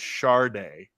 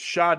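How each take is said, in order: First: The first syllable has an added r sound. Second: The first syllable has no r sound. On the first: "an extended R in there too" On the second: "it's [name]"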